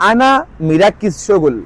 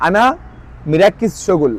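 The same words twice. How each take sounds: First: Slow, careful Egyptian Arabic আনা মিরাক্কিস শগুল; Egyptian Arabic phrase. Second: Said in the usual way. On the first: Shown as a demonstration. Teacher models the phrase for viewers, slow and careful. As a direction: spell out আনা মিরাক্কিস শগুল slowly for learners. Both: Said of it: "মানে এটা কি?".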